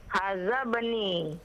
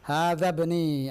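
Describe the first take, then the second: First: Haza said with a plain z sound; z instead of dh. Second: Slow teacher correction of Hadza with th; dh corrected. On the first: Real, not acted. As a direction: Haza bani with z, not the Arabic dh. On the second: Shown as a demonstration. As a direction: Hadza bani slowly, tongue between teeth on dh.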